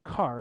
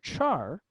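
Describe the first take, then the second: First: The word begins with a k sound. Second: The word begins with a ch sound.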